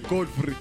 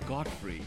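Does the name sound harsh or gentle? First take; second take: harsh; gentle. First: The name is said in a harsh, angry way. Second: The name is said in a gentle, friendly way. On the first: Trouble is coming. The speaker calls it wrong. "if we don't say Godfrey" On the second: The person is addressed kindly. The speaker calls it right. "we say Godfrey. Like, hello, Godfrey"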